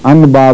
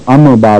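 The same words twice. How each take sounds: First: "ان با" with a separate, clear n; wrong clear n. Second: "ام با" with a separate, clear m; wrong clear m. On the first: Teacher showing the mistake, "ان با" with hard n. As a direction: split "ان با" after a plain n. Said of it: "بھی نہیں پڑھتے". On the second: Teacher showing the other mistake, "ام با" with full m. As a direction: split "ام با" after a plain m. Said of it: "اور ام با بھی نہیں پڑھتے". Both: Shown as a demonstration.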